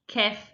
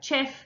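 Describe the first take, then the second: First: The word begins with a k sound. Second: The word begins with a ch sound. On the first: "If that doesn't work, try k" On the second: "the first thing they're going to try is ch"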